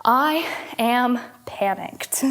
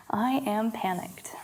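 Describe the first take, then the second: First: Slow calm affirmation. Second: Whispered softly and slowly; whispered affirmation. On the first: Yoga teacher leading a repeat-after-me affirmation, slow and calm. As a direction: say it slowly for them to repeat. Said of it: "I would like you to repeat after me". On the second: Teacher quietly whispers the affirmation for the class to echo. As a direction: breathe the words almost silently. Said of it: "repeat after me". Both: Shown as a demonstration.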